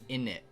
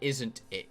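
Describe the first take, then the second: First: The T sounds in the middle are dropped. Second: The T sounds in the middle are pronounced. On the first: The speaker calls it right. "you say in it" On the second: The speaker calls it wrong. "You don't say isn't it"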